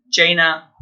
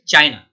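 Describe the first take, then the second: First: "China" said as chay-na; wrong China. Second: "China" with eye, chy-na; correct China. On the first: Teacher imitating the error: "China" as chay-na. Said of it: "many people pronounce it like this". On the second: Teacher giving the right form: "China" as chy-na. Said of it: "has to be China". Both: Shown as a demonstration.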